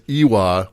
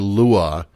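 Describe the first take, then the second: First: The word begins with an 'ee' vowel sound. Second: The word begins with an 'l' consonant sound. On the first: The speaker calls it wrong. "I kept pronouncing it Iwa" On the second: The speaker calls it right. "when it's actually Lua"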